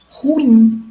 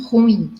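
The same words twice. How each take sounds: First: Ruim in two syllables, ru-IM, drawn out; careful demo of ruim as ru-IM; correct stress on IM. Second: Ruim run together as RUim, stress on the u; wrong stress on RU. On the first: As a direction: say ruim slowly, stressing the final "im". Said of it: "colocamos a sílaba tônica no lugar errado". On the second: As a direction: say ruim as one syllable, leaning on "ru". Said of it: "e não ruim". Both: Shown as a demonstration.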